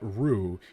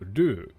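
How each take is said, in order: First: The consonant is an English-style R sound. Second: The tongue briefly taps the roof of the mouth. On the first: The speaker calls it wrong. "it's not ru" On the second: The speaker calls it right. "Your your tongue touches the the roof of your mouth"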